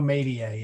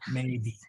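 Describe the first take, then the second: First: A small extra vowel trails after the word. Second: The word ends cleanly without an extra vowel. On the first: The speaker calls it wrong. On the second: The speaker calls it right.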